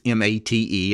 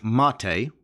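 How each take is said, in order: First: M A T E spelled letter by letter. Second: Mate said as MAH-tay, stress on the first syllable; pronounced Mate. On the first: Explaining the spelling to Linux newcomers, letter by letter. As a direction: read out the letters M, A, T, E one at a time. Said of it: "and it's pronounced Mate". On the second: Teaching newcomers how to say Mate, MAH-tay, stressing the first syllable. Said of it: "The, uh, stress is on the first syllable". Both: Shown as a demonstration.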